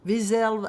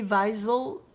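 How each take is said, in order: First: Wiesel said as vee-ZELL, higher pitch; alternative pronunciation. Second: Wiesel said as VY-zul, stress first; alternative pronunciation. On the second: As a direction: say Wiesel with "vy" as in vie, weak ending. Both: Shown as a demonstration. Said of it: "I don't know how you pronounce it".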